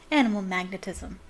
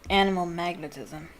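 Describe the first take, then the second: First: It is said without a gloomy tone. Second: It is said in a gloomy tone.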